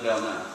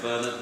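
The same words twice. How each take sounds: First: "Bernard" said the French way, bair-NAR; "Bernard" with French vowels, stress on the end; French pronunciation. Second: "Bernard" said the English way, BER-nud; "Bernard" with English r and weak ending; English pronunciation. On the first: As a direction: say "Bernard" in French, silent final d. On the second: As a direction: say "Bernard" as an English name, stress up front. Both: Shown as a demonstration. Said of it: "they're learning the shared word".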